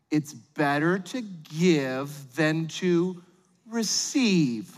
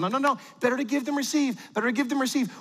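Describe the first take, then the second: First: Very slow, drawn-out saying; parental platitude. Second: Quick, high-pitched repeated saying; hurried platitude. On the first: Parent consoling little Billy about presents, slow and deliberate. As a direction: stretch out every word like a solemn lesson. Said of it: "here's how it sort of plays out". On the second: Parent getting kids to the car without meltdown, hurried. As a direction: rattle it off to cut off protest. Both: Acted.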